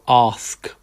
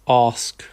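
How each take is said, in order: First: It is said in a southern London accent. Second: The same.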